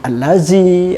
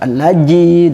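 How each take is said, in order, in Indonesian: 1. Konsonan di tengah itu bunyi z. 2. Konsonan di tengah itu bunyi j. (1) "Jangan sampai murid itu membaca allazi dengan allazi" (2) "atau allaji"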